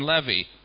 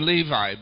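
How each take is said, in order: First: The name has a Jewish-style pronunciation. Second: The name has its common English pronunciation. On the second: This is how the speaker's own group says it. "We call him Levi"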